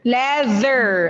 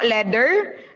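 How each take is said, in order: First: The middle consonant is a soft voiced th. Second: The middle consonant is a hard d sound. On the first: The speaker calls it right. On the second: The speaker calls it wrong.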